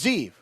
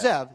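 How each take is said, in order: First: The vowel is a long 'ee' sound. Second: The vowel is a short 'e' sound. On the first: The speaker calls it right. "and it's Zeev, correct?" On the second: The speaker calls it wrong.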